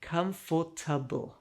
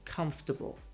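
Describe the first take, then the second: First: It is said with four full syllables. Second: It is squished into three syllables. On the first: The speaker calls it wrong. "The most common mistake" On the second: The speaker calls it right. "We crush it down to three. Say"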